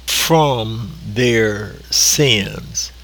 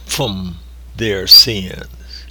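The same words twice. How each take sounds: First: From drawn out slowly, leaning on the first word; slow it right down and press on from; stress on from. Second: From their sins said very slowly and heavily; emphasis on from. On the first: Preacher stressing from to the congregation, slow and weighty. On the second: Preacher repeating the phrase to stress from, slow and heavy. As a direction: lay weight on every word, from above all. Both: Shown as a demonstration. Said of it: "I want to put an emphasis on the word from".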